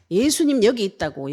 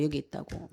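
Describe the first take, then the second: First: Loud cry, a bit higher; shouting out. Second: Said in the usual way. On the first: Retold or imitated. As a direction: call it out loudly like a crowd yelling. (고함 지르듯 크게 외치기) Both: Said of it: "막 고함 지르면서".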